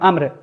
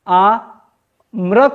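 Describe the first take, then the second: First: The word is said quickly without any break. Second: The word is split with a break after आ. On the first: The speaker calls it right. "लगातार आप तेजी से बोलते हैं, रुक नहीं सकते हैं" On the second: The speaker calls it wrong. "आ म्र कहने में ना आपको सब कुछ परेशानी लग जाएगा"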